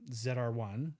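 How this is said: Z is pronounced zed, the Canadian way.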